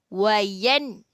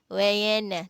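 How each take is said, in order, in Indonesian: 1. N berakhir bersih tanpa vokal setelahnya. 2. Ada bunyi vokal tambahan yang mengikuti n. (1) "nun tu dengan jelas, nyata dan terang" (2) "tak boleh, salah"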